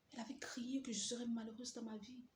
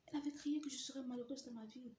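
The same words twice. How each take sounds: First: Whisper. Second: Said in the usual way. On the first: Retold or imitated. Repeated thought.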